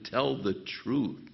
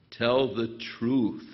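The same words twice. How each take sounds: First: Said in the usual way. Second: Slow, firm telling to tell the truth; slow emphatic parental command; firm instruction. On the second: Shown as a demonstration. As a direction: lay it down like a parent's rule. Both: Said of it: "That's what you have to emphasize".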